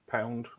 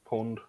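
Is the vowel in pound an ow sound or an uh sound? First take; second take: ow; uh. First: The vowel is the standard ow sound. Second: The vowel is a short uh sound. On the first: "it's like money we call pound"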